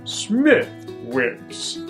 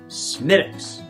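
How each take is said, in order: First: The 'th' and 'w' are sounded as spelled. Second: The 'th' and 'w' are silent. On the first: The speaker calls it wrong. "This is not Smithwick's" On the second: The speaker calls it right. "it's Smittix"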